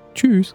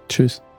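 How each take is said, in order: First: The goodbye sounds warm and friendly. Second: The goodbye sounds curt and unfriendly. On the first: The speaker calls it right. "Ist besser" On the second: The speaker calls it wrong. "Das klang jetzt nicht so nett"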